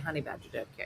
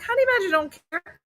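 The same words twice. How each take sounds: First: It is said in a plain, ordinary voice. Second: It is said in an imitated, put-on voice.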